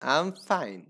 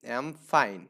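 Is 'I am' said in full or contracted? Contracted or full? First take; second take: full; contracted. First: I and am are said as two words. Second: I and am merge into one syllable. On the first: "আমি তাকে বললাম যে আই এম fine" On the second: "আয়ের সাথে যদি এমটা দিয়ে দেন এখানে, অ্যাম উচ্চারণ"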